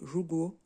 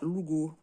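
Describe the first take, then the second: First: It is said the standard way, starting with J. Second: It is said with an accent, starting with L. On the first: This is the standard Mandarin pronunciation. "en mandarin ça se dit jugo" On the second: Some speakers with a regional accent say it this way. "il y en a certains qui vont dire lugo"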